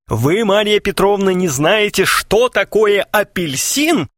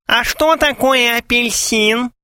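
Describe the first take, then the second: First: High, outraged mock fury; fierce growl. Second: High, slow squeak of a mock fiancée; squeaky voice. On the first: Suitor confronts clueless Maria Petrovna, fiercely. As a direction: demand it in theatrical indignation. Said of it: "свирепо зарычал Клинков". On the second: Gromov as clueless beloved questions suitor, squeaking. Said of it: "снова пропищал Громов". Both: A narrator's reading.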